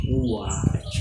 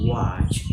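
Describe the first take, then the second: First: "watch" begun with an oo vowel, oo-atch; slow vowel-led "watch", like oo-atch; watch minus W. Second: Said in the usual way. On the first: Shown as a demonstration. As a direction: say "watch" as oo gliding into ah, no W. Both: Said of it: "ua in watch minus in the W sound".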